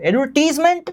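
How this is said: It is said with a British English pronunciation. "British English"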